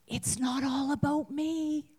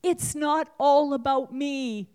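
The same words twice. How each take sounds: First: It's not all ABOUT me, ABOUT stressed. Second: It's not ALL about me, ALL punched and louder; stress on all. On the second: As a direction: hit ALL, falling at the end. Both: Shown as a demonstration. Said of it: "Say it with me".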